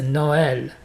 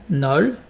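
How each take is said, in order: First: The word is said as two syllables. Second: The word is said as one syllable. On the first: The speaker calls it right. "c'est Noël" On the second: The speaker calls it wrong. "c'est pas Nol"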